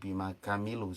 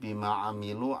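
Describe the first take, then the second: First: The second word starts with a k sound. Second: The second word starts with a throat sound. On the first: The speaker calls it wrong. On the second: The speaker calls it right.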